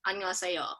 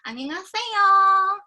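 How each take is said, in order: First: It is said plainly with little intonation. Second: It is high-pitched, cutesy, with drawn-out syllables.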